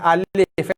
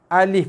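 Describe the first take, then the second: First: A vowel is drawn out long. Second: Each vowel is short, one beat. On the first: The speaker calls it wrong. "bukan alif eh" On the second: The speaker calls it right. "tanpa sebarang panjang"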